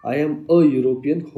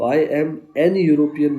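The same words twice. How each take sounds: First: "a European" said slowly, a before the Y sound of European; slow model of the right form "a European"; correct article. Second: "an European" said slowly as the wrong form, an before European; slow demonstration of the mistake "an European"; wrong article. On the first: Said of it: "हो जाएगा". (सही रूप, धीरे से "a European") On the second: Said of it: "नहीं होगा". (गलत रूप, धीरे से "an European") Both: Shown as a demonstration.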